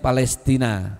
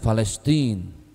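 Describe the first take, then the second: First: The name is pronounced the Indonesian way. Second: The name is pronounced the Arabic way. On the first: "Bahasa Indonesianya Palestina"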